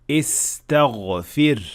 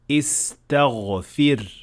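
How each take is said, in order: The two takes are said the same way.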